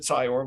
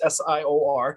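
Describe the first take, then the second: First: It is said as one blended word. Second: Each letter is said separately. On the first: The speaker calls it wrong. "Sometimes they pronounce it S I O R. We don't we don't put all the letters together" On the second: The speaker calls it right. "it's S I O R"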